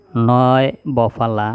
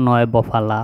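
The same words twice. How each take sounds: First: Slow drill. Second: Said in the usual way. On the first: Shown as a demonstration. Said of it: "teacher drills conjunct slowly". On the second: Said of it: "teacher repeats at normal pace".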